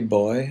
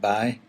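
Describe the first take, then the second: First: It is said with a standard 'boy' sound. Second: It is said the County Down way, like 'bye'.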